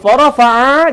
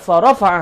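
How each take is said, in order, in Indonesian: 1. Satu vokal dalam kata itu dibaca panjang. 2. Semua vokal dalam kata itu dibaca pendek. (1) "dipanjang sikit bunyi a tu" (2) "Tapi yang betulnya"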